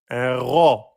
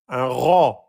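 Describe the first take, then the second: No difference in how they are said.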